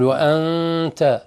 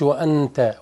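First: The n is hidden without touching the tongue. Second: The n is fully pronounced with the tongue. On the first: The speaker calls it right. "تقول وأنت" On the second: The speaker calls it wrong. "ما تقولش وأنت، وأن يبقى النون موجود بس أنت ضغطت عليه"

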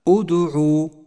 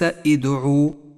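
First: The word begins with a u vowel. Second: The word begins with an i vowel. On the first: The speaker calls it right. "هكذا أدعو" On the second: The speaker calls it wrong. "وليس إدعو"

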